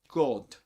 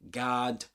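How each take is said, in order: First: It is said with a rounded 'oh' vowel. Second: It is said with an open 'ah' vowel. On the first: "the British say oh oh" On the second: "Americans usually say ah ah"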